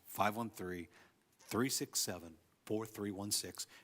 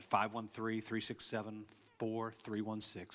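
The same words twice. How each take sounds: First: The number is said slowly. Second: The number is said fast.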